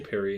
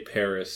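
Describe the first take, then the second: First: The word ends without an s sound. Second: The word ends with an s sound. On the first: "they don't say Perry in the episode" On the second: "I think people say Paris several times"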